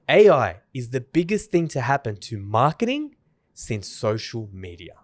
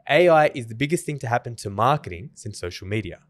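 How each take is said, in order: First: It is said expressively, with emphasis on certain words. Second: It is said flatly, with little vocal variation.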